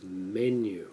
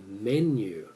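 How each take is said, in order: First: Menu with the weight on me, falling lower; stress on the first syllable. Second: Menu with the weight on nu, rising; stress on the last syllable. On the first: Shown as a demonstration. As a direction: say menu the English way, first part strong. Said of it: "we tend to pronounce the first part of a word". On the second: Retold or imitated. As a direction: imitate a speaker who punches the end of menu. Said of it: "He was emphasizing the nu".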